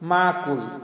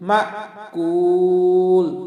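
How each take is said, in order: First: The syllables run together without a glottal catch. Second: A light glottal catch separates the syllables. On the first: The speaker calls it wrong. "হামজার উচ্চারণটাকে আমরা অনেক সময় করি না" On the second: The speaker calls it right. "একটু হালকা ধাক্কা দিয়ে বলবো"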